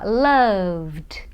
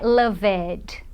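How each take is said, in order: First: The ending is just a final d sound. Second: The ending is pronounced as an extra syllable. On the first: The speaker calls it right. "eu vou falar loved" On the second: The speaker calls it wrong. "Não é loved"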